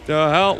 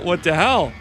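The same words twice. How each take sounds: First: Sudden shocked outburst; jolted, loud disbelief; startled. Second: Loud baffled outburst; outraged. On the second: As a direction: complain loudly in disbelief. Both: Real, not acted. HP bar gone.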